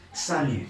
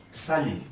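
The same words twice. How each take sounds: The two takes are said the same way.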